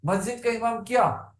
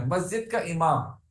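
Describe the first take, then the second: First: मस्जिद का इमाम क्या raised higher, क्या asked as a question; teacher's question. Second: Said in the usual way. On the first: Shown as a demonstration. Teacher asking the class about the mosque's imam, questioning. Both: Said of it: "अब इस क्या का जवाब देंगे हम कैसे?".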